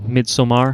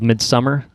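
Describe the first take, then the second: First: It is pronounced with an attempted Swedish sound. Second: It is pronounced like the English word midsummer.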